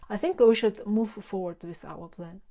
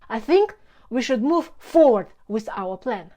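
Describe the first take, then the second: First: It is said flatly, with no extra energy. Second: Key words get extra energy, giving rhythm. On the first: The speaker calls it wrong. "the flat sentence" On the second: The speaker calls it right. "the second version has a natural rhythm"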